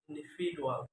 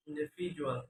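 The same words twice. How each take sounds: First: "individual" with a plain d sound; learner's mispronunciation. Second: Said in the usual way. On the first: Shown as a demonstration. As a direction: say "individual" as "indifidual". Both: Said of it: "is pronounced".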